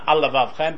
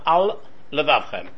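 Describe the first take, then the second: First: The two words are run together without a break. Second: The two words are separated by a slight break. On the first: The speaker calls it wrong. "it's important to not put it together" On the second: The speaker calls it right.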